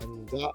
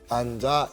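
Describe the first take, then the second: First: The command is said quietly with little energy. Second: The command is said with exaggerated, lively energy. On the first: The speaker calls it wrong. "소극적인 표현보다는" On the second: The speaker calls it right. "좀 과장된 표현"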